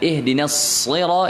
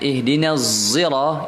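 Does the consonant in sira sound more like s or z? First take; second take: s; z. First: The consonant in sira sounds like an s. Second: The consonant in sira sounds like a z. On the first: This is the most eloquent reading, used in our transmission. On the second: This is a correct but less eloquent reading from another transmission.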